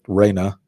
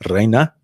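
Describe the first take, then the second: First: The R at the start is not rolled. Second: The R at the start is rolled.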